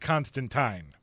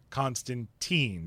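First: The name has a British pronunciation. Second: The name has an American pronunciation. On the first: "if you live in Great Britain, they will tell you, you're saying it wrong. It is Constantine" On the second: "But here in the States, ... all refer to him as Constantine"

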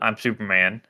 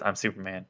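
First: It is said in a normal voice. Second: It is said in a low, quiet voice.

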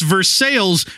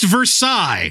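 First: The name is pronounced the local Indiana way. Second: The name is pronounced the French way. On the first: This refers to the town in Indiana. "But in Indiana, it's Versailles" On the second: This refers to the place in France where the treaty was signed. "it's pronounced Versailles. That's where they signed the freaking treaty"

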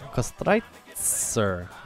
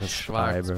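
First: The name ends with a 'tser' sound. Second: The name ends with a 'ber' sound. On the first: The speaker calls it right. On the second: The speaker calls it wrong. "we called it Kostreiber because we're morons"

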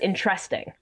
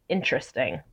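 First: The stress falls on an unusual later syllable. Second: The stress is on the usual first syllable. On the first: This is the character's quirky way of saying it. The speaker calls it wrong. "But he says interesting. Like he puts a weird emphasis" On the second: This is how most people say it. The speaker calls it right. "I think everybody else in the world says interesting"

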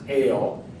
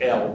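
First: The word sounds like the English word ale. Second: The word sounds like the letter L. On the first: The speaker calls it right. "but it's usually pronounced ale" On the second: The speaker calls it wrong. "You might want to think you pronounce it L"

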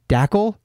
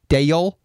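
First: The name is said with a 'k' sound. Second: The name is said without a 'k' sound. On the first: The speaker calls it wrong. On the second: The speaker calls it right.

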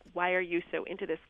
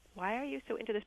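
First: It is asked in an accusing, judgmental tone. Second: It is asked in a curious, interested tone.

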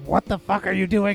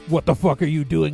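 First: It is said in a raised, high-pitched voice. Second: It is said in the speaker's normal voice. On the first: The speaker calls it right. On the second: The speaker calls it wrong.

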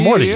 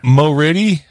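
First: The name is said with two syllables. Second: The name is said with three syllables. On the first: "It's Morty, just Morty" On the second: "you want to pronounce it Moriddy"

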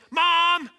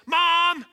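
First: The call is a loud, frantic yell. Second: The same.

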